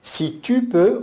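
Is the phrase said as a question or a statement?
question. It is said as a questioning echo. The speaker asks back whether the listener is able. The speaker calls it wrong. "comme s'il reprenait la phrase de Jésus"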